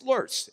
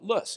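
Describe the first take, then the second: First: The word is said the German way. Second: The word is said the Western way. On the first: The speaker is German. "If you're German, it's" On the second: The speaker is from the western United States. "Out here in the West, we call it"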